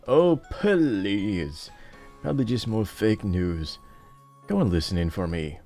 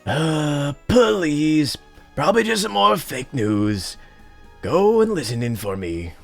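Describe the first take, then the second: First: It is said in his normal voice. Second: It is said in a put-on character voice.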